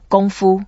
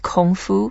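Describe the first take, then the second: First: It is said with a Mandarin-style pronunciation. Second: It is said with an English-style pronunciation. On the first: The speaker calls it right. "Let's get it right" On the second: The speaker calls it wrong. "Some people normally pronounce it as"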